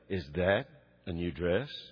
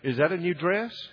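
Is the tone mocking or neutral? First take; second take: mocking; neutral. First: It is asked in a mocking, insulting tone. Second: It is asked in a plain, sincere tone. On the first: The question implies an insult. The speaker calls it wrong. "The other, I'd get hit" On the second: The question is a friendly, genuine one. The speaker calls it right. "On the one, I'd get an answer"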